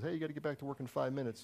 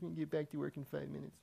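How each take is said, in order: First: It is said in a plain, ordinary tone. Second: It is said in a mocking, derisive tone.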